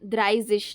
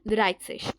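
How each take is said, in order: First: The middle consonant is a buzzing z sound. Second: The middle consonant is a hissing s sound. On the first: The speaker calls it wrong. "द्राइज़िश नहीं, ... ज़ नहीं होती है ना" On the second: The speaker calls it right. "स साउंड होती है"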